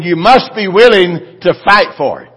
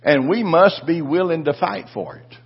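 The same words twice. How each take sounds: First: Repeated louder, hammering MUST; forceful preaching shout. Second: Said in the usual way. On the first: Shown as a demonstration. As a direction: say it again with full pulpit force. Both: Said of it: "I said".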